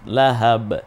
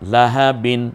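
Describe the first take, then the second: First: The word ends abruptly on a bouncing 'b'. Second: The word ends with a final 'in' sound. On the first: The reader stops at this word. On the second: The reading continues without stopping.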